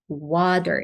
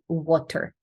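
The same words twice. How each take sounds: First: The middle consonant is a true D sound. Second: The middle consonant is not a D sound. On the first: The speaker calls it right. "with like a true D sound" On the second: The speaker calls it wrong. "That was my pronunciation"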